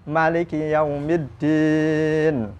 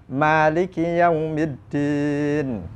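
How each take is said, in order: No difference in how they are said.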